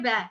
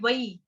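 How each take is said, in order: First: The syllable is pronounced the Hindi way. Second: The syllable is pronounced the Sanskrit way. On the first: "Hindi में बोलेंगे वै" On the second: "Sanskrit में बोलेंगे वई"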